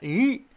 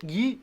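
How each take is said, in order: First: "Yee" pushed too far, much higher; overdone forward jaw. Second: "yee" with the jaw a little forward; a modest, unexaggerated "yee"; slightly forward jaw. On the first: Teacher showing what is too much, exaggerated high "Yee". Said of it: "Not that much". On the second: Teacher showing jaw position to learners, mild "yee". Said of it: "a little bit". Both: Shown as a demonstration.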